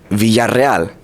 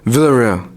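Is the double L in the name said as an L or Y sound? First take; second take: Y sound; L sound. First: The double L is said as a Y sound. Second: The double L is said as a plain L. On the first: The speaker calls it right. "the two L's is a ya sound, and the two R's is a r sound" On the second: The speaker calls it wrong. "don't say Villarreal, because that's not the right way to say it"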